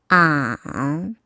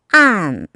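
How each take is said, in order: First: The pitch dips low, then rises. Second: The pitch falls sharply from high to low.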